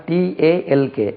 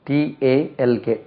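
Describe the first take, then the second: No difference in how they are said.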